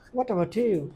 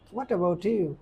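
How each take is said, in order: First: The words run together with linked sounds. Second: The words run together with linked sounds.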